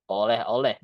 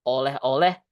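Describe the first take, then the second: No difference in how they are said.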